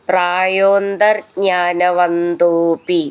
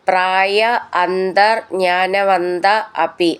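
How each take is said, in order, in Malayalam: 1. വാക്കുകൾ ചേർന്ന് ഒറ്റ തുടർച്ചയായി പറയുന്നു. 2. ഓരോ വാക്കും വേർതിരിച്ച്, ചേർക്കാതെ പറയുന്നു.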